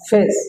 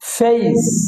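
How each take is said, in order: First: The vowel is a plain, short 'e' sound. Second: The vowel glides from 'e' to 'i'. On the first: The speaker calls it wrong. "আসলে এটা ভুল উচ্চারণ হবে" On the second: The speaker calls it right. "এই এই উচ্চারণ হবে এই"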